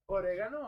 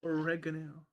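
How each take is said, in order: First: "oregano" said the Spanish way, oh-reh-GAH-no; "oregano" with a rolled Spanish r and open vowels. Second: "oregano" said the English way, uh-REG-uh-no; "oregano" with stress on REG. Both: Shown as a demonstration. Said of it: "never mind, it's oregano".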